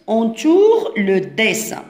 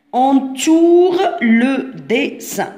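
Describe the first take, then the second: First: Said in the usual way. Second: "Entoure le dessin" very slowly, word by word; slow dictation. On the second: Shown as a demonstration. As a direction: stretch each syllable of "Entoure le dessin" for young pupils. Teacher repeats instruction word by word. ("Entoure le dessin" ببطء شديد، كلمة بكلمة)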